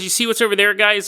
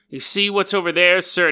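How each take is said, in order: First: It is said in a normal voice. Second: It is said in a pirate voice.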